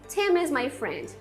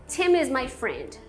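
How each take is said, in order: No difference in how they are said.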